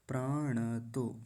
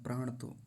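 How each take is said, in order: First: The n is full, with a vowel after it. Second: The n is clipped, with no vowel after it. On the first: The speaker calls it right. "ऋणकार को आधा नहीं करेंगे, पूरा रखेंगे" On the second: The speaker calls it wrong. "यहाँ पर गलती क्या होती है, प्राण तो कह देते हैं"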